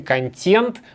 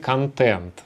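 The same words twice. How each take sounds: First: The consonant before the last vowel is soft. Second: The consonant before the last vowel is hard. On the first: The speaker calls it wrong. "Мы не говорим контент" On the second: The speaker calls it right. "мы говорим контент"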